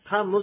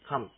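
First: A clear vowel is sounded after the final m. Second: The word ends on m with no vowel. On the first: The speaker calls it wrong. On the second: The speaker calls it right.

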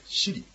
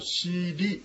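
First: The word ends with a bare r consonant. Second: The word ends with a vowel after the r. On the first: The speaker calls it right. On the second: The speaker calls it wrong.

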